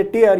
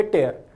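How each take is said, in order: First: टीयर said tee-er, long ee, the tear of the eye; टीयर rhymes with fear; tear as in crying. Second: टेयर said tay-er, open ay vowel, rhymes with care; टेयर rhymes with bear; tear as in rip. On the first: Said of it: "ये बोलेंगे टीयर". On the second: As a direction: say टेयर like tearing paper, tay-er. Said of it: "ये बोलेंगे टेयर". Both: Shown as a demonstration.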